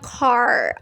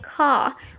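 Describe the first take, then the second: First: The word ends with a strong R sound. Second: The word ends without any R sound. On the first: "R-nya itu um, pronounce-nya tebel gitu ya" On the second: "R-nya itu silent"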